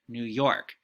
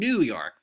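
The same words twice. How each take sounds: First: The stress falls on the expected syllable. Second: The stress falls on an unexpected syllable. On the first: The speaker calls it right. "It would tell you to say" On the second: The speaker calls it wrong. "those are wrong, that those don't sound correct"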